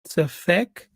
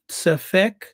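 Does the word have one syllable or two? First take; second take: two; two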